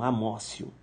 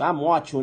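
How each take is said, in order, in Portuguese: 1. A consoante do meio é um som de s. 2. A consoante do meio é um som de t. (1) "Mas a pronúncia é amócio" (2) "Mas tá escrito isso, escreve amótio"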